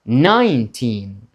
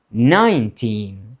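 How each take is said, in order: Both takes have the same delivery.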